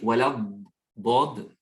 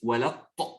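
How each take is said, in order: First: The consonant after 'wala' is an emphatic d. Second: The consonant after 'wala' is an emphatic t. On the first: The speaker calls it right. "Plutôt de dire" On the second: The speaker calls it wrong. "ils disent Wala ta, comme si c'est ta"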